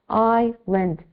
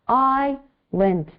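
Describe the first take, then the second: Both takes have the same delivery.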